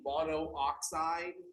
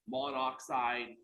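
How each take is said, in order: First: Two separate O vowels are said in a row. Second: Only one O vowel is said before oxide. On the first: The speaker calls it wrong. "instead of saying monooxide" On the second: The speaker calls it right. "one of those O's gets dropped off"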